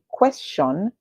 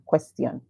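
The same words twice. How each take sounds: First: An sh sound comes before the last syllable. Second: A t sound comes before the last syllable. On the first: "you're saying the ti as sh" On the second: "you're saying ku est, make it the sts, and then a and on"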